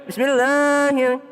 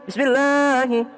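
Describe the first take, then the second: No difference in how they are said.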